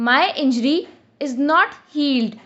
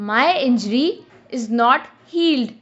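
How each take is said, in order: The two takes are said the same way.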